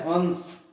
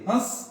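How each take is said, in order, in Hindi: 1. नासिक्य ध्वनि एक पूर्ण व्यंजन ध्वनि है। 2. स्वर स्वयं अनुनासिक है। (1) "अनुस्वार में जलपक्षी हो गया" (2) "उच्चारण में भी अंतर देखिए"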